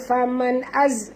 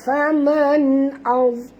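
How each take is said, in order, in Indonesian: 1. Bunyi z itu ringan dan tipis. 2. Bunyi z itu berat dan tebal. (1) "jangan baca faman az. Kalau kita baca az jadi huruf zai" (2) "huruf za tebal"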